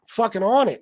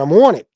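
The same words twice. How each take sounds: First: Said in the usual way. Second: Loud, rough attempt at a Philly accent; mock Philly accent on a punched-out line. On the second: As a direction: imitate a Philly accent, hitting "on" hard. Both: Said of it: "or in the Philly accent".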